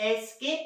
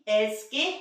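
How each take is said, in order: The two takes are said the same way.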